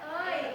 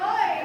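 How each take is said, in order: First: The word is said softly and gently. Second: The word is said hard and forcefully. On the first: It is done in a friendly, gentle way. The speaker calls it right. "pelan aja" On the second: It is done with too much aggression. The speaker calls it wrong. "jangan pakai dendam juga dong, masa oi gitu"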